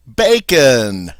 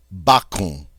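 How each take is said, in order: First: "bacon" said the English way, BAY-kun, louder; plain American "bacon", BAY-kun with a hard end; English pronunciation. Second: "bacon" said the French way, bah-KOHN with a nasal end; French "bacon", open A and a nasal O, falling; French pronunciation. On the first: Teacher gives the English word "bacon" as a loud punchline. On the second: Teacher says the French word "bacon" before translating it. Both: Shown as a demonstration. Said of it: "you've probably guessed that means".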